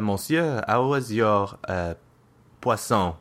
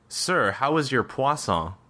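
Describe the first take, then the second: First: It hesitates with a filler before the last word. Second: It flows smoothly without any hesitation.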